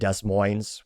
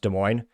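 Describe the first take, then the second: First: It uses a pronunciation heard outside Iowa. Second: It uses the local Iowa pronunciation. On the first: The speaker is from outside Iowa. The speaker calls it wrong. "people mispronounce it, calling it Des Moines" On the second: The speaker is from Iowa. The speaker calls it right. "If you're from Iowa, you know it's pronounced Des Moines"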